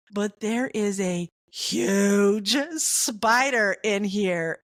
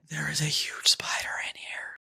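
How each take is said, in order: First: Carefully breaking the news to his wife; slow careful warning. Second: Hushed whisper, no voice at all; whispering the warning to his wife. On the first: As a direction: spell it out slowly so it lands. I don't wanna alarm you. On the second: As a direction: breathe it out so she won't panic. Trying to stay calm, avoid scream. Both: Retold or imitated.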